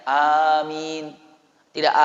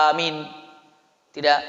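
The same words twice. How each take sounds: No difference in how they are said.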